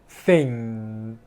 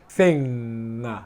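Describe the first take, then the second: First: The final ng stops cleanly with no release. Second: The final ng ends with an extra 'nga' release. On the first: The speaker calls it right. "This is the right pronunciation, the good pronunciation" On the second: The speaker calls it wrong. "And this is bad pronunciation"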